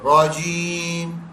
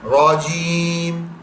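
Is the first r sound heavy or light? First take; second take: heavy; heavy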